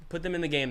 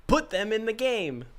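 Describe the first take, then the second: First: Said in the usual way. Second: Mock-wise pronouncement, pitched higher; wise man quote. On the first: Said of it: "[name] is quoting me". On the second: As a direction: deliver it like a lofty sage. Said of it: "as a wise man once said".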